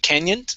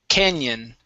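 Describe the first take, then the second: First: The word ends with an added T sound. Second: The word ends cleanly on the N sound. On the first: The speaker calls it wrong. "you added a T sound at the end, saying canyon" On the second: The speaker calls it right. "end on the N"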